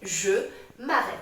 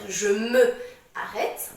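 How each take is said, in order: First: The vowel of 'me' is dropped and linked. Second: The vowel of 'me' is fully pronounced. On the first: The speaker calls it right. "on dit" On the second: The speaker calls it wrong. "Au lieu de dire"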